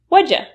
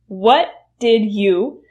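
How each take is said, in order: First: The words blend together into a shortened form. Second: Each word is said fully and separately. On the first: "reduce to what'd ya" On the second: "What did you will reduce to"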